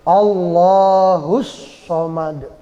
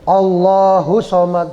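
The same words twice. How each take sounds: First: The s sound is doubled and held. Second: The s sound is short and single. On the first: The speaker calls it right. "itu tasydid ya" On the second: The speaker calls it wrong. "jangan Allahus somad, jangan begitu"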